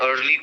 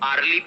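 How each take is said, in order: First: "early" as er-lee; correct er sound. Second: "early" mispronounced as ar-lee; wrong vowel. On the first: Teacher names the right word, correct "early". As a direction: central er vowel in "early". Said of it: "So both are". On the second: Teacher quotes the common mistake, wrong "arly". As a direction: open ar at the start of "early". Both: Shown as a demonstration.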